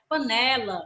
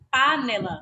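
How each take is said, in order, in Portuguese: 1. A tônica está na sílaba do meio. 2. A tônica está na primeira sílaba. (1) "A gente chama de panela" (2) "eu vou chamar a palavra de panela"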